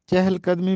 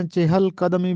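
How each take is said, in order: First: چہل in one syllable, no vowel after q-a-d in قدمی; first accepted form. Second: Two syllables in چہل, a vowel before the l; second accepted form. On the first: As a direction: say چہل قدمی as "chehl-qadmi". (چہل قدمی کو "چَہْل قَدْمی" پڑھیں) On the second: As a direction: say چہل قدمی as "chehel-qadmi". (چہل قدمی میں "چِہَل" دو حصوں میں پڑھیں) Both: Shown as a demonstration. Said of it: "جو دونوں طرح سے مستعمل ہے".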